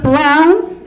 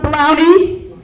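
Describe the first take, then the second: First: The name ends plainly without an ee sound. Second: The name ends with an added ee sound. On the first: The speaker calls it right. "the E is silent. It's just brown" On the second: The speaker calls it wrong. "It's not pronounced brownie"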